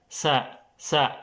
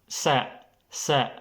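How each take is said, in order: The two takes are said the same way.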